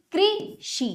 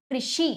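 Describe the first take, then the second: First: कृषि split slowly as कृ... षि; broken into syllables. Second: Said in the usual way. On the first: Shown as a demonstration. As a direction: hold कृ, then give षि apart in कृषि. (कृषि को तोड़कर: कृ... षि) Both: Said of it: "तोड़कर पहले".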